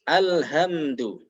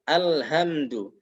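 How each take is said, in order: The two takes are said the same way.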